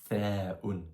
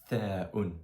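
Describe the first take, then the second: The two takes are said the same way.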